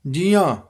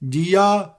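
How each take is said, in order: First: ਜੀਆਂ with the final vowel nasalised; nasal ending. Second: ਜੀਆ with a purely oral final vowel; un-nasalised ending. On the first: Teacher showing students ਜੀਆਂ with its nasal dot sounded. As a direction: let ਜੀਆਂ end through the nose. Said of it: "ਬਿੰਦੇ ਸਹਿਤ ਉਚਾਰਨ ਕਰਨਾ ਹੈ". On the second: Teacher showing the mistake, ਜੀਆ without nasal sound. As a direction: drop the nasal from the end of ਜੀਆ. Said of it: "ਨਹੀਂ ਬੋਲਣਾ". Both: Shown as a demonstration.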